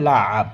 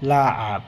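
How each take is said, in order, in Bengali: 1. মাঝখানে গলার গভীর "ain" ধ্বনি আছে। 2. মাঝখানে গলার গভীর "ain" ধ্বনি আছে।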